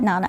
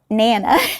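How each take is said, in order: First: It is said with a northern pronunciation. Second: It is said with a Texas pronunciation. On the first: "We call it Nana up here" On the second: "I tried to say that the Texas way"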